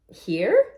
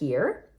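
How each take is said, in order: First: The voice is placed far forward. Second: The voice is placed toward the back. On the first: The speaker calls it right. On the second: The speaker calls it wrong. "mm, a little bit more forward"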